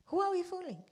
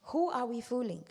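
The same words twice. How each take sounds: First: Higher repeat. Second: Said in the usual way. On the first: Shown as a demonstration.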